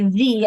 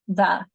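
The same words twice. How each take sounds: First: The vowel is a full, strong vowel sound. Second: The vowel is a short, weak uh sound. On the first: The speaker calls it wrong. "We don't say the" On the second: The speaker calls it right. "We have the schwa and that uh sound"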